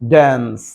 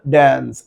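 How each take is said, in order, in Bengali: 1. শব্দটি আমেরিকান উচ্চারণে বলা হয়েছে। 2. শব্দটি আমেরিকান উচ্চারণে বলা হয়েছে।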